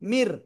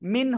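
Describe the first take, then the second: First: The final n merges into an r sound. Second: The final n sound is clearly kept. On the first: The speaker calls it right. "এটাই মিলানো" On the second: The speaker calls it wrong. "মিন হচ্ছে না"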